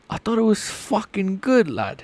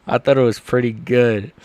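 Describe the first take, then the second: First: High, put-on English lad accent. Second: Said in the usual way. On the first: Streamer defending his impression to chat, English accent. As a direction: protest in a mock English accent. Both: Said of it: "your English accent is terrible".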